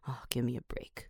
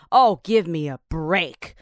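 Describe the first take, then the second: First: It is said flatly, with no expression. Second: It is shouted loudly toward the sky.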